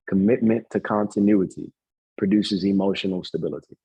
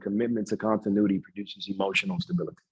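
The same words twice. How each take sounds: First: It is said slowly. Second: It is said at normal speed.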